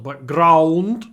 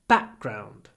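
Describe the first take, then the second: First: The stress is on the second syllable. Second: The stress is on the first syllable. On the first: The speaker calls it wrong. "It's not background" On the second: The speaker calls it right. "the stress is on back"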